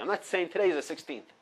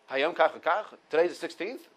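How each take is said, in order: First: Said in the usual way. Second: "today's the sixteenth" with a rising question tune at the end; asking as a question. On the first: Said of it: "I'm not saying it as, as the counting". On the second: Shown as a demonstration. Teacher showing students a counting-day question. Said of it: "with a question mark at the end of it".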